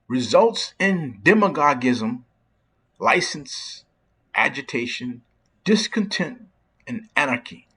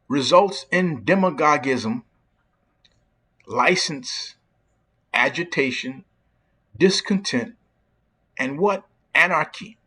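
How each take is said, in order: First: It is said at a normal pace. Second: It is said slowly and deliberately.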